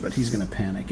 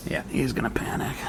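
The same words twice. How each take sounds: First: Said in the usual way. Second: Soft whispered aside. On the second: Acted. Solo player whispering to himself over the board. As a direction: breathe it like a secret. Repeats panic call, then whispers.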